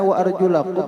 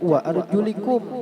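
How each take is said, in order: First: The vowel after 'arjul' is 'a'. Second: The vowel after 'arjul' is 'i'. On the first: The feet are washed. "dengan fathah" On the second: The feet are wiped. "dengan baris kasroh"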